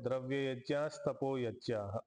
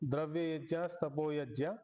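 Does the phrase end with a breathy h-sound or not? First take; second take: h-sound; no h-sound. First: The last word ends with a breathy h-sound. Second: The last word ends without a breathy h-sound. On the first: The speaker calls it wrong. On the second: The speaker calls it right.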